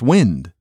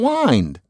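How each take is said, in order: First: The vowel is short, as in 'in'. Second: The vowel is long, rhyming with 'find'. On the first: "Why isn't that pronounced properly?" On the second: "You find something. You're kind to your mother. You bind something"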